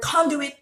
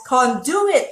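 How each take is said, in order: First: "conduit" said the standard way, stressed on CON; correct pronunciation. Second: "conduit" said wrongly, stress moved to con-DU-it; old mispronunciation. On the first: Host shows listeners the word conduit, correct pronunciation. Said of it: "correctly pronounce the word conduit". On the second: Host confesses how she used to say conduit, mispronounced. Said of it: "I used to pronounce the word conduit as". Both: Shown as a demonstration.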